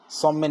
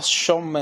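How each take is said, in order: First: सौम्य starting with a plain 's'; wrong form. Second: सौम्य opening with a hushed 'sh' sound; contrasting form. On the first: Teacher ruling out a form, सौम्य with plain 's'. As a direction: say सौम्य as som-me. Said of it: "नहीं होता". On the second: Teacher contrasting two forms, सौम्य with 'sh'. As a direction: say सौम्य slowly as shom-me. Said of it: "होता है". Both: Shown as a demonstration.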